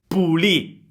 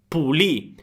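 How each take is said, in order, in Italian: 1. La parola è tagliata, finisce con la 'ì' accentata. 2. La parola è tagliata, finisce con la 'ì' accentata.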